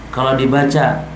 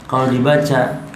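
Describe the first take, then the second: The two takes are said the same way.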